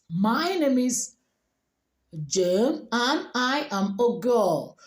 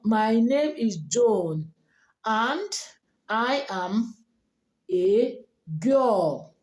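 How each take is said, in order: First: It is spoken in a native English accent. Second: It is spoken in a Nigerian English accent. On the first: The speaker calls it right. "sounding like a native speaker with the same sentence" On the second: The speaker calls it wrong. "like a typical Nigerian"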